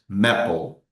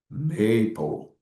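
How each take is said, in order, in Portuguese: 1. A primeira vogal é curta, como em map. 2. A primeira vogal é longa, como em may. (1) "nós não dizemos maple" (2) "Como nós temos apenas um P, nós dizemos maple"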